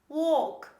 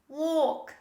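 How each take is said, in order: No difference in how they are said.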